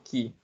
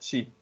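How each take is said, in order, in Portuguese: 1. A palavra começa com som de 'k'. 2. A palavra começa com som de 'ch'. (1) "ou Ki" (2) "se pronuncia Chi"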